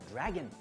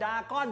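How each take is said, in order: First: It is said the English way, with the r. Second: It is said the Thai way, without the r. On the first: This is the international pronunciation. The speaker calls it right. "ถ้าเกิดเป็นสากลเนี่ยจะออกเสียงว่า" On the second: This is how Thai people usually say it. The speaker calls it wrong. "ดาก้อนแบบคนไทยเรียก"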